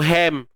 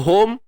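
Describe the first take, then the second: First: The word is said with an a vowel. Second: The word is said with an o vowel. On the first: "tak mau ham" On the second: "Tak mau home"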